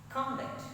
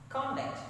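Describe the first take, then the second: Both takes have the same delivery.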